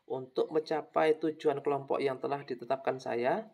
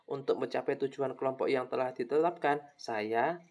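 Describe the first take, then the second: First: The phrase runs into 'saya' without a pause. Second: A pause separates 'saya' from the phrase before. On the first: The speaker calls it wrong. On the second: The speaker calls it right.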